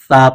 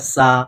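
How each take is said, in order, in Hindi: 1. यह व्यंजन नरम th है। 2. यह व्यंजन सीटी वाला s है। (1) "इसको सा पढ़ना है।" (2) "बाज़ लोग पढ़ते हैं सा, तो ये हो गया सा, नहीं होगा, गलत हो जाता है, सीन की आवाज़ आ गई।"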